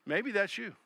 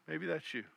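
First: Said in the usual way. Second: Much softer echo. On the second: Shown as a demonstration. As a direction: drop to a soft aside on "Maybe that's you". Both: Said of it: "repeated for effect".

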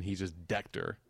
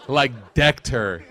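First: Said in the usual way. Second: "decked" drawn out slowly and louder; stress on decked. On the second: Real, not acted. Telling friends how his son tackled her, slow punch on "decked". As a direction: hit "decked" hard and stretch it. Emphatic repeat of the verb.

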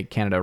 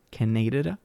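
First: Said in the usual way. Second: Canada as soft, questioning kuh-NAY-duh-duh; deliberate mispronunciation. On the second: Shown as a demonstration. Host tries to say the country wrong, Canada as kuh-NAY-duh-duh. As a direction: say Canada softly with a long NAY and extra syllable. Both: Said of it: "I'm trying to say Canada wrong".

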